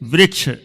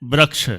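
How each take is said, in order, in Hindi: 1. पहला अक्षर 'ri' ध्वनि का प्रयोग करता है। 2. पहला अक्षर एक क्षेत्रीय भिन्न ध्वनि का प्रयोग करता है। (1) "सही है वृक्ष, वृक्ष ये शुद्ध है" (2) "बुंदेलखंड के बोलते हैं वृक्ष, वो भी अशुद्ध है"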